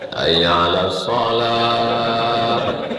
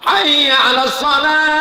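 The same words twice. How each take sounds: First: It is said softly and gently. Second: It is said loudly and forcefully. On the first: It is the style meant for a baby, misused at the mosque. The speaker calls it wrong. "Yang untuk bayi itu dibawanya ke masjid" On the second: It is the proper call for the mosque. The speaker calls it right. "Kalau azan masjid itu lantang"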